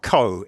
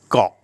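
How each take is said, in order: First: The vowel is drawn out long and open. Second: The vowel is very short and cut off abruptly. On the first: The speaker calls it wrong. "Farangs always say ko" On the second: The speaker calls it right. "it's just got"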